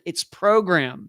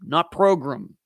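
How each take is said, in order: First: The word ends with a clear 'gram' sound. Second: The word ends with a reduced 'grum' sound. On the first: The speaker calls it right. "It's G R A M" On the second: The speaker calls it wrong. "It's not G R U M at the end"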